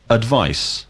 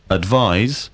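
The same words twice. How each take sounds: First: Advice. ending in a hissed s sound; noun advice. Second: Advise. ending in a buzzed z sound; verb advise. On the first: Teacher modelling the noun Advice. with a final s. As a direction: say Advice. with a sharp s at the end. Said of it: "advice is the noun". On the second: Teacher modelling the verb Advise. with a final z. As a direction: say Advise. with a voiced z at the end. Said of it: "advise is the verb". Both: Shown as a demonstration.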